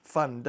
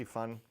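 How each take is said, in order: First: "fund" louder, with a distinct final d; corrected pronunciation. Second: "fund" with the final d dropped, like "fun"; mispronounced. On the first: YouTuber correcting his own slip, "fund" firmly pronounced with its d. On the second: YouTuber slipping on emergency fund, "fund" mispronounced as "fun". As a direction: say "fund" sloppily, swallowing the d. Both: Real, not acted. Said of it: "I can't even pronounce the word".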